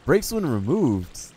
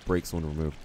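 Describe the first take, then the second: First: High, loud, drawn-out disbelief; astonished reread, swooping up high then falling; incredulous repeat. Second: Said in the usual way. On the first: Real, not acted. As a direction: stretch "when removed" high and slow in disbelief. Repeats item text in disbelief.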